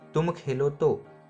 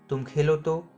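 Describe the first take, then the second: First: It sounds like a statement urging someone to play. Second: It sounds like a question with questioning intonation.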